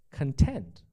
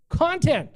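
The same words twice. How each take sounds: First: 内容的"content"重音在后，con-TENT; content as in happy. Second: Content stressed on the first syllable, CON-tent, much higher; CON-tent said high with a punch on the first syllable; content as in stuff. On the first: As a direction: content stressed on the second syllable, tent. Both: Shown as a demonstration. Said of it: "Kinda lame, right?".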